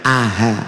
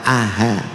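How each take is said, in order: Both takes have the same delivery.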